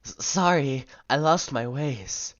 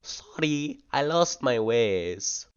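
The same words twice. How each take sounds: First: High, loud, drawn-out pathetic apology; more pathetic normal voice. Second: Higher, louder, drawn-out try at a woman's voice; attempted female voice. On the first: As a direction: plead it pathetically in your own voice, raised. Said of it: "but it's more pathetic". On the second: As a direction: put on a female voice, stretching the words. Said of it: "Can I do a female voice?". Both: Shown as a demonstration.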